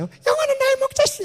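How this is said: It is spoken in a high-pitched voice. The speaker calls it wrong. "높은 목소리 이상하잖아요"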